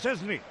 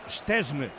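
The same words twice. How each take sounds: First: The name is pronounced with Spanish-style sounds. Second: The name is pronounced with Polish-style sounds.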